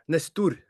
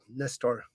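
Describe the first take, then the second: First: The name has a Norwegian pronunciation. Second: The name has an American pronunciation. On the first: "say it in Norway?" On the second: "if we're like in America, uh, which you said it"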